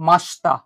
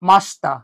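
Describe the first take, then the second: The two takes are said the same way.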